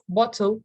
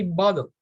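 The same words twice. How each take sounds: First: "bottle" with a crisp T in the middle; clear T. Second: "bottle" said like "boddle". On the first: Teacher showing what to avoid, "bottle" with full T. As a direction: sound the T fully in "bottle". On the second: Teacher showing natural speech, "bottle" with a D sound. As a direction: soften the T in "bottle" to a quick D. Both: Shown as a demonstration. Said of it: "Pronouncing T's as D's".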